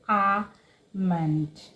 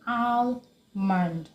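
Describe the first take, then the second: First: The L sound is silent in the word. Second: The L sound is pronounced in the word. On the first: The speaker calls it right. "It is almond" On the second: The speaker calls it wrong. "You don't say almond"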